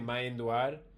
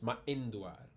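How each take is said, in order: First: The vowels run together without a glottal stop. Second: A glottal stop breaks the word before 'induar'. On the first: The speaker calls it wrong. "Instead of just saying" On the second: The speaker calls it right. "it's ma'induar. You hear the difference?"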